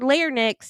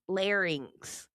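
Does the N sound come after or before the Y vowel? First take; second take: before; after. First: The N sound comes before the vowel. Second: The N sound comes after the vowel. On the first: The speaker calls it wrong. "you're putting the N in the wrong place" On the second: The speaker calls it right. "It's pronounced larynx"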